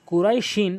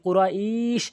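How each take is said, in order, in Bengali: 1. শব্দটি তার -in শেষাংশ নিয়ে চলতে থাকে। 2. শব্দটি শেষের দীর্ঘ স্বরধ্বনি দিয়ে থামে। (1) "আমি থামি নাই" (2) "আমি যদি থামি কুরাইশ, তখন একালিফ টেনে থামতে হবে"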